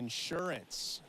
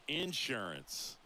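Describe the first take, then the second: First: It is said in a standard accent. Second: It is said in a Southern accent.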